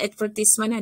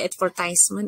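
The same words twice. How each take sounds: First: It is said with a British pronunciation. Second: It is said with an American pronunciation. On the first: "Ada yang dia pakai British style" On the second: "ada yang American style"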